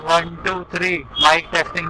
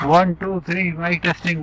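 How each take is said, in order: First: Recorded inside the car with the window open. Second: Recorded inside the car with the window closed.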